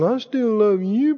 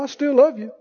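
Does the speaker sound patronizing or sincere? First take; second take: patronizing; sincere. First: It is said in a condescending, put-on pious tone. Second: It is said plainly and sincerely. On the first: The love is a fake religious show. The speaker calls it wrong. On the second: The love is real and heartfelt. The speaker calls it right.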